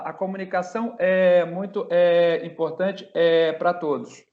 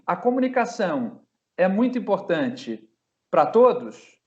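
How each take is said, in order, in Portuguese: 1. A frase é quebrada por hesitações com o som 'é'. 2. A frase flui sem nenhum som de hesitação. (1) "Quando você faz aqueles é, uh" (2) "não é o ideal, mas é melhor"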